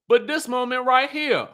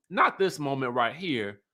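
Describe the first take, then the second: First: High, emphatic THIS moment right here; stress on THIS. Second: Said in the usual way. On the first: Shown as a demonstration. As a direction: lift THIS and keep the phrase high. Contrasts two moments by stress.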